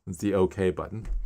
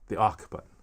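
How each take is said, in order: First: OK is said as two letters, O-K. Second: OK is said as one word, awk. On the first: The speaker calls it right. "I was like, what? It's the OK button" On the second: The speaker calls it wrong. "he would say, you know, click the awk button"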